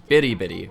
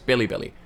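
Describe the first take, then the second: First: The middle consonant is a Japanese R-like flap. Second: The middle consonant is a clear L sound.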